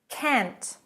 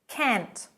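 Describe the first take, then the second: The two takes are said the same way.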